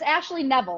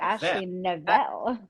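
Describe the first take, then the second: First: The last name sounds like Neville. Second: The last name sounds like Novell. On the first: The speaker calls it right. "But it's Ashley Neville, like Neville Longbottom" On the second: The speaker calls it wrong. "You say Novell, and I think it sounds very classy"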